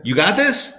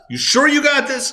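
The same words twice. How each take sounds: First: Said in the usual way. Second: Much higher, incredulous ask; doubting shepherd. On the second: Retold or imitated. Shepherd doubting the sheep, pitched up high and incredulous. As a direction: press them, sure?. What do you think the shepherd would say?.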